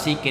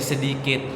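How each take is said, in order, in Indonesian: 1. Kata ini disingkat menjadi dua suku kata. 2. Kata ini diucapkan lengkap dengan tiga suku kata. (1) "si kata sikit itu seharusnya menjadi sedikit" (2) "seharusnya menjadi sedikit"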